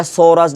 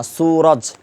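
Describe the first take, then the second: First: সৌরাজ with an open o, so-raj; সৌরাজ with o in place of long oo; wrong vowel. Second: সুরাজ with a long oo, soo-raj; সুরাজ with a clear drawn u vowel; correct long oo. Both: Shown as a demonstration. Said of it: "এটা সৌরাজ না".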